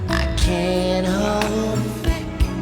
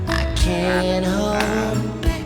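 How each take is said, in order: No difference in how they are said.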